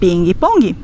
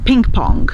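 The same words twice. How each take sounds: First: It is said with a Brazilian Portuguese pronunciation. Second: It is said with an English pronunciation. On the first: "nós vamos dizer ping pong" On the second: "Nós também não vamos dizer ping pong"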